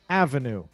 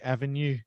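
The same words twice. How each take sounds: First: It is said English-style, stressing the first syllable. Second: It is said with a French-sounding pronunciation. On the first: The speaker calls it right. "it's on the first syllable" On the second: The speaker calls it wrong. "it sounds very French"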